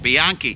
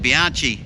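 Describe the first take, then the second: First: The middle consonant is a hard k sound. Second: The middle consonant is a ch sound. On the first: This is how others insist it should be said. "they say you should pronounce it" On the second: This is how it is said locally. "here in Australia, C H means ch"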